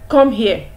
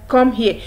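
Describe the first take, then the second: The two takes are said the same way.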